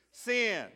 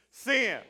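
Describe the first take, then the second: First: Said in the usual way. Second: Sin punched with full conviction; really mean it. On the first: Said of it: "say it out loud with me". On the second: Shown as a demonstration. Pastor urges the congregation: Sin said with full conviction. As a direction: hit Sin hard, like you mean it. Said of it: "really mean it".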